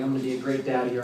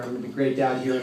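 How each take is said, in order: First: "I'm" pushed hardest, fast and muttered under the breath; softer, quicker self-pep talk hitting "I'm"; quick mutter, stress on I'M. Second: Muttered, "dad" pushed hardest; soft self-talk that leans on "dad"; mutter, stress on DAD. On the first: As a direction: rush it to yourself, leaning on "I'm". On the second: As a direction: say it to yourself, landing on "dad". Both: Retold or imitated. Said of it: "I'm talking to myself".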